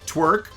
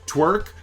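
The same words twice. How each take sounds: First: It is said fast, merged into one syllable. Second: It is said fast, merged into one syllable.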